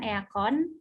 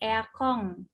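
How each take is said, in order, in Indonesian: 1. Kata itu berakhir dengan bunyi n biasa. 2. Kata itu berakhir dengan bunyi ng. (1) "bukan eakon" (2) "pelafalan huruf N-nya jadi eng"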